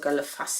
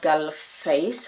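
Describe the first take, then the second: First: The name ends with a 'fass' sound. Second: The name ends with a 'face' sound. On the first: "or Gallefass actually, you pronounce it" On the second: "which is called Galleface"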